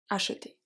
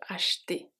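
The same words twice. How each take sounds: First: "acheter" with every syllable, a-che-ter; full acheter. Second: "acheter" clipped to "ach'ter", middle e dropped; fast casual acheter. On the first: Teacher giving the careful form "acheter", all syllables. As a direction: sound the middle e of "acheter" clearly. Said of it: "we use acheter". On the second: Teacher showing how "acheter" sounds fast, e skipped. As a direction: swallow the e in "acheter", said quick and soft. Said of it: "we speak really fast, so we tend to skip". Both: Shown as a demonstration.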